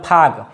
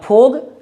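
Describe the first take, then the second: First: The vowel sounds like an open 'ah'. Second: The vowel sounds like a clear 'oh'. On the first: "न फाग" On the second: "न फोग"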